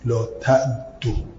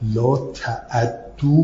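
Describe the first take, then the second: First: The ain has no vowel before the doubled d. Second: The ain takes a short a before the doubled d. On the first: "عین ساکن، دالم مشدد" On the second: "به فتح عین و تشدید دال"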